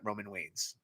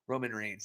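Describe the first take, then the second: First: The R sounds come out like W sounds. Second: The R sounds are pronounced as clear Rs. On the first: The speaker calls it wrong. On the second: The speaker calls it right.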